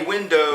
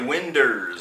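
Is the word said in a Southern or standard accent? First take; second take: standard; Southern. First: It is pronounced the standard way, ending in '-dows'. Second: It is pronounced the Southern way, ending in '-ders'. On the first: "You don't say windows" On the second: "you say winders"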